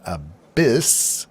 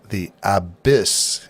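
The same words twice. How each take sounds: First: "abyss" as "uh-BISS", stress on the second syllable; "abyss" with a weak first vowel and stressed "BISS"; the dictionary "abyss", second syllable stressed; usual pronunciation. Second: "abyss" said slowly as "AB-iss", stress on the first syllable; "The abyss." with first-syllable stress, drawn out; "abyss" rhymed like "AB-is", a poetic turn; singer's pronunciation. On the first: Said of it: "with the emphasis on abyss". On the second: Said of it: "must take poetic license with the word abyss". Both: Shown as a demonstration.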